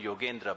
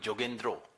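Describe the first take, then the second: First: The name starts with a y sound. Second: The name starts with j and ends in o. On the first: "like Bengalis do not call me Yogendra" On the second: "Bengalis call me Jogendro"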